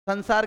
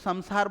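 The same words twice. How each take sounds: First: The nasal before s sounds like n. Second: The nasal before s sounds like m. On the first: The speaker calls it wrong. "तो इसको संसार कहते हैं, जो कि गलत है" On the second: The speaker calls it right. "मैं के स्थान बनाया ना, तो इसको संसार बोलो ना आप"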